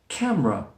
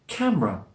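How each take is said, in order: First: The word has two syllables, middle schwa dropped. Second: The same.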